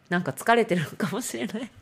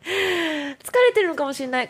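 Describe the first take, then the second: First: Said in the usual way. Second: Much higher and louder, laughing through it; laughing repeat. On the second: Real, not acted. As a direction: toss it off again with a laugh, way up high. (笑いながら高い声で繰り返す)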